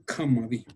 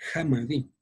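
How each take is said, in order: First: The word is said with a 'kj' sound. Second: The word is said without a 'kj' sound. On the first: This is the Tepeji regional variant. "ellos dicen" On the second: This is the Valle del Mezquital variant. "Nosotros decimos en el Valle del Mezquital decimos"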